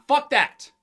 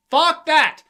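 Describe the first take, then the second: First: Said in the usual way. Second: Louder and higher, hard shout; forceful repeat. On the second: Real, not acted. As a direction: spit it out with force. Repeated rant line, forceful second take.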